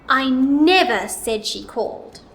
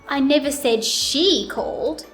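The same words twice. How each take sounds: First: The word "never" is louder, longer and higher. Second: The word "she" is louder, longer and higher. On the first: It was definitely not said at all. "Now let's put it on the word never" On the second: Somebody other than her called. "Now let's put it on she"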